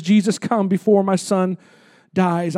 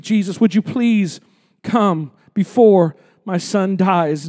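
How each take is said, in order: First: Quiet plea. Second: Slow desperate plea. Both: Retold or imitated. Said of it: "he says".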